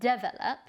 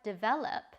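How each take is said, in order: First: The stress is on the first syllable. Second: The stress is on the second syllable.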